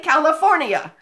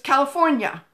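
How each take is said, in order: First: The ending is said as two syllables, 'nee-uh'. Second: The ending is said as one syllable, 'nyuh'. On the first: The speaker calls it wrong. "we don't say California" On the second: The speaker calls it right. "It's California. Fornia. N Y A"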